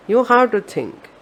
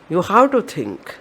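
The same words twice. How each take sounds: The two takes are said the same way.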